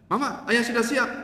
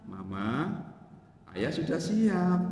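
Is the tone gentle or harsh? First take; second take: harsh; gentle. First: It is said in a flat, curt, unromantic tone. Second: It is said in a soft, low, gentle tone. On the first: It sounds cold and unaffectionate. The speaker calls it wrong. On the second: It is a warm, affectionate invitation. The speaker calls it right.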